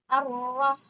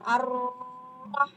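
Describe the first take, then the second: First: The doubled r is pressed briefly without lengthening. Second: The doubled r is held for a longer time. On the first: The speaker calls it right. "tapi ar-rah ar-rah" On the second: The speaker calls it wrong. "jadi bukan ar-rah, bukan gitu"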